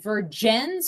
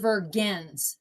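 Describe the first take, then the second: First: The G is sounded like a soft J. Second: The G is sounded as a hard G. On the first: "So V E R J E N S?" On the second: "or V E R G N S"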